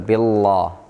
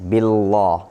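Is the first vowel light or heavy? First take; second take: heavy; heavy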